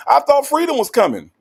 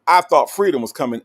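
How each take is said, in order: First: Loud, high-pitched exclamation; hammed-up, high cry of surprise; mock outcry. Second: Said in the usual way. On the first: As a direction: call it out as a playful protest. Calls out viewer's name as exclamation.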